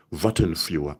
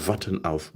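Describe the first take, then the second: First: "warten für" said louder as the mistake to avoid; wrong form, louder. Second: "warten auf" said softly as the right form; correct phrase, softer. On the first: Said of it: "Don't say". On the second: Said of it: "So remember". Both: Shown as a demonstration.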